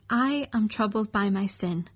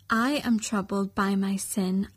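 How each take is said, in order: Both takes have the same delivery.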